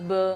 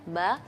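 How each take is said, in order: First: It is said with a regional Indonesian accent. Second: It is said with a thin Arabic sound. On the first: The speaker calls it wrong. "logat-logat daerah masuk be be, enggak" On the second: The speaker calls it right. "ba secara tipis"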